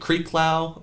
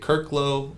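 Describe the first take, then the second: First: The first syllable sounds like creek. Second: The first syllable sounds like kirk. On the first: "I'll get Creeklow" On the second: "I'll get Kirklow"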